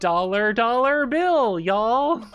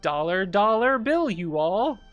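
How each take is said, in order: First: The ending is said as a contracted 'y'all'. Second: The ending is enunciated fully as 'you all'.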